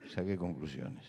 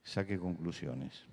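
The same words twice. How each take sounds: The two takes are said the same way.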